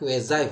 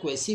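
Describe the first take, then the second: First: It sounds like kway-zai, ending in zai. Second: It sounds like kway-see, ending in see. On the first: The speaker calls it right. "इसका correct pronunciation जो होता है होता है क्वेजाई" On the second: The speaker calls it wrong. "बहुत सारे लोग इसको क्वासी या क्वेसी बोलते हैं"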